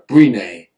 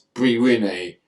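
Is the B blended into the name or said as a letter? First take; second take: blended; letter. First: The B is blended into one short word. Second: The B is said as a separate letter. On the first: The speaker calls it wrong. "I tried to put it together" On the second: The speaker calls it right. "but it's"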